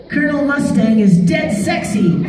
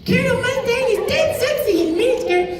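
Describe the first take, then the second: First: Put-on much higher boyish voice, laughing; Al's famous line. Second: Put-on much higher, softer boyish voice; sweet little brother delivering the line; Alphonse voice. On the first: Shown as a demonstration. Performing the forbidden line for fans, high boyish voice. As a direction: deliver the catchphrase with a giggle. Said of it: "I'm gonna tell you something". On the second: Thirteen-year-old Aaron performing for kids, high boyish Alphonse voice. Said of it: "in his Alphonse voice".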